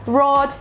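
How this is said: The r is a soft American-style r. "American kind"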